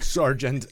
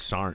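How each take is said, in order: First: The word is said in full with the G sound. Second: The word is clipped short with no G sound. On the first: The listener is in trouble. "When you pronounce that G, you know you're in trouble" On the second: It is the ordinary everyday form. "In the Army, there is no G in Sergeant. It's Sarn"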